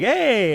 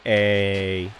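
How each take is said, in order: First: It is said in an excited tone. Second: It is said in a flat tone.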